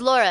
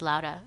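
First: The name is said with an English r sound. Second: The name is said with a Spanish tapped r. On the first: The speaker calls it wrong. "I never say it" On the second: The speaker calls it right. "people should say my name in Spanish"

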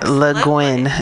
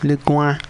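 First: English-style ending with the final N clearly sounded. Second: French-style ending with the final N not sounded. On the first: "if you must pronounce the N" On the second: "I was just putting a little French twist on it. Because it's a French name"

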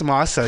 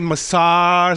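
First: The name is said with a plain, unaffected pronunciation. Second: The name is said with a European-sounding pronunciation. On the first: This is how the name is actually said. The speaker calls it right. "It's Mazza" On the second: This is how some people mistakenly say the name. The speaker calls it wrong. "Some people can say Massar, something like a fucking European"

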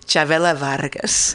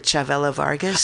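First: The name is said with a Spanish accent. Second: The name is said with an English accent. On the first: The speaker calls it right. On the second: The speaker calls it wrong.

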